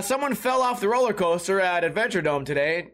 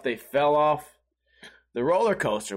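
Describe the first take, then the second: First: Said in the usual way. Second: Lower, half to himself in disbelief; stunned inner thought. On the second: Retold or imitated. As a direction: mull it over, low and baffled.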